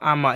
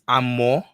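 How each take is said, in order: First: The word ends in an 'ah' vowel. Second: The word ends in an 'oh' vowel. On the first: The speaker calls it wrong. "it's not ama" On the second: The speaker calls it right. "it's amo"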